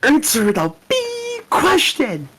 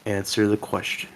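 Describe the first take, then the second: First: Sudden high slow squeal; shrieking demand. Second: Low, soft threatening order; quiet menace. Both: Acted. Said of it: "I'll be Doctor Lingham".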